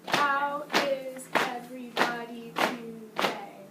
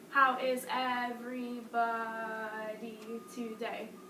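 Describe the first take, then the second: First: How, is and today are long; everybody is short. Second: Everybody is long; how, is and today are short.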